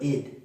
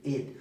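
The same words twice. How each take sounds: First: The ending is said with a short 'i' vowel. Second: The same.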